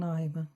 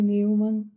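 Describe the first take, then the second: First: The name is said with German pronunciation. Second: The name is said like English Newman. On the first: Few people say it this way. "poucos falam" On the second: This is how most people here say it. "quando alguém se referir a mim como"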